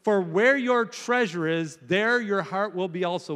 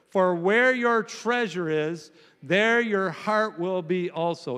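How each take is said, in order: First: Said in the usual way. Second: Muffled, like through a wall. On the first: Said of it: "Will you read that with me?". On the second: Real, not acted. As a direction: dull and muffled reading. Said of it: "You sound muffled this morning".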